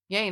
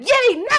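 First: It is said flatly, without enthusiasm. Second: It is said brightly, with enthusiasm. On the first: The reply seems uninterested. "it just comes off as yay, nice" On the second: The reply is genuinely happy. "But really you meant, yay, nice"

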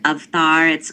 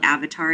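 First: The word is pronounced the Hindi way. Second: The word is pronounced the English way. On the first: "I'm gonna pronounce this the way we pronounce it in Hindi" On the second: "They call it Avatar here"

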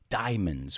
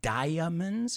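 First: The A is dropped, giving two syllables. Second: The A is pronounced, giving three syllables. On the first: The speaker calls it right. "We don't pronounce the A" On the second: The speaker calls it wrong. "It's not diamonds"

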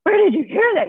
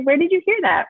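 First: It sounds shocked and accusing, with a gasp. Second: It sounds calm and curious, without accusation.

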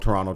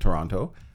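First: The second T is dropped. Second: The second T is clearly pronounced. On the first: "There's no second T" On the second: "I pronounce it Toronto"

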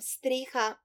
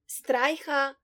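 First: It is said in standard Slovene, with a plain vowel. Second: It is said in Styrian, with a diphthong.

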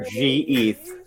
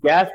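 First: The word is said as two syllables. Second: The word is said as one syllable. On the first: "That's one or two syllables" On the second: "That's one or two syllables"

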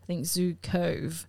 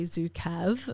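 First: The name follows the American pronunciation. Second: The name is read as it is spelled. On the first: "but they say Zukov" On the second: "So I want to say Zukav"

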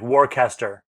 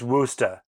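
First: It is pronounced the way it is spelled. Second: It is not pronounced the way it is spelled. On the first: The speaker calls it wrong. "is spelled like W-O-R-C-E-S-T-O-R, like Worcester" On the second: The speaker calls it right. "But it's Worcester"

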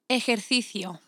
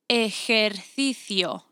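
First: The word is said at a normal pace. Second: The word is said slowly and deliberately.

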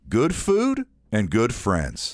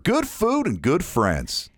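First: A short pause comes before 'and good friends'. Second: The phrase runs on without a pause.

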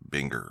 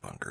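First: The first syllable sounds like 'bin'. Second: The first syllable sounds like 'bun'. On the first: The speaker calls it right. "It is Binger or something along those lines" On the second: The speaker calls it wrong. "it is not pronounced Bunker"

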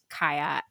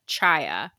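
First: The name begins with a k sound. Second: The name begins with a ch sound. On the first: The speaker calls it right. "it's actually pronounced Kaya" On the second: The speaker calls it wrong. "I was pronouncing her name Chaya"

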